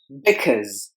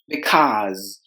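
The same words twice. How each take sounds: First: The second vowel is said short. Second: The second vowel is said long.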